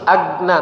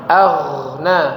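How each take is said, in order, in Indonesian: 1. Konsonan di tengah itu hentian keras, terputus. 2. Konsonan di tengah itu bunyi yang mengalir, berkelanjutan. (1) "Kalau huruf G kan agna. Nah, itu langsung putus" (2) "tapi ini mengalir suaranya"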